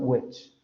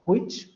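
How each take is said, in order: First: It starts with a plain voiced 'w' sound. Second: It starts with a breathy, voiceless 'hw' sound. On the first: "Para el inglés norteamericano" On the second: "para los hablantes de la variante escocés"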